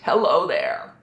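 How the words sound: The voice sounds pressed and tight. "Too tight"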